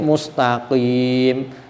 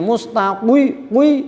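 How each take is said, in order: First: The word ends with a clear 'qim' sound. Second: The word ends with a 'qwi' sound instead. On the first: "Ana sing mustaqim" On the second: "sing lagi ngaji mustaqwi wi"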